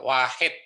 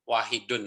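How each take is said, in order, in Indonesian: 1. Kata ini berakhir tanpa suku kata -un di akhir. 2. Kata ini berakhir dengan suku kata -un yang lengkap. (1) "wahid itu tidak harus wahidun" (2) "tidak harus wahidun"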